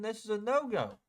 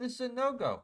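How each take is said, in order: First: High, pointed "This is a no-go"; market's verdict. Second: Even higher "This is a no-go", falling firmly at the end; market's verdict again. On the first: Trader voicing the market's refusal, high and pointed. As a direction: voice the market pronouncing a no-go, higher. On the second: Trader repeating the market's no-go, high and firm. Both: Retold or imitated. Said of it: "It said".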